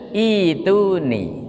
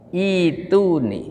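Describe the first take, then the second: The two takes are said the same way.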